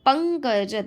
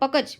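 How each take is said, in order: First: The first syllable ends with a nasal sound. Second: The first syllable has no nasal sound. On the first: The speaker calls it right. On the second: The speaker calls it wrong.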